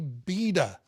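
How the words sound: It is said in a British or Australian accent.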